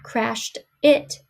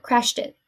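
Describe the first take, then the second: First: "crashed it" slowly, as two separate words; words separated. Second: "crashed it" run together like "crash-tit"; linked words. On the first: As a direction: stress "it" on its own, rising. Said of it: "Not crashed it". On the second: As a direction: carry the final t of "crashed" into "it". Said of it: "but crashed it". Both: Shown as a demonstration.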